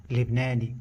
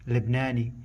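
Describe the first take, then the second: No difference in how they are said.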